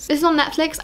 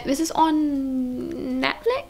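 First: Said in the usual way. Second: Unsure question. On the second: Real, not acted. Telling viewers where to stream it, unsure question. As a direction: ask "This is on Netflix?" as if checking. Unsure, checks herself, then restates.

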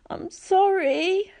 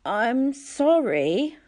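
First: Put-on very high, slow, tearful goat-boy voice; sniffling satyr. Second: High, slow, drowsy mumble; barely awake, sorry; weak mumbled apology. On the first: Satyr friend apologising to Percy, high and sniffling. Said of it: "Grover sniffled". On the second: Acted. Dazed boy apologising to the girl, mumbled high and slow. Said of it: "I mumbled".

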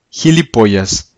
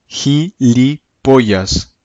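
First: Said in the usual way. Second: Teacher drawing out "Gilipollas" at half speed; very slow demo. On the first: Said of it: "teacher repeats at normal pace". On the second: Shown as a demonstration. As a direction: say "Gilipollas" very slowly, syllable by syllable. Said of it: "teacher slows new word".

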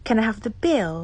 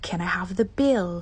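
First: Said in the usual way. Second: The whole request whispered slowly. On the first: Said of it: "ที่ร้านอาหารเด้อ สู่เวลาเรียกขอบิล". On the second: Shown as a demonstration. Asking a waiter for the bill in a whisper. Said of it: "unvoiced whisper".

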